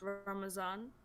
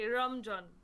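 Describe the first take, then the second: First: The middle consonant is a z sound. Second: The middle consonant is a j sound. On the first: This is the Urdu way of saying it. "in the alphabet of that language in Urdu, it's Ramazan" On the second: This is how people who cannot say z say it. "go fully in and say Ramjan"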